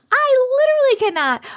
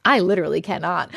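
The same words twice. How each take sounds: First: Literally pitched way up and louder; exasperated squeal. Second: Said in the usual way. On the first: Real, not acted. Streamer repeating her reaction, higher in exasperation. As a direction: squeal it in disbelief.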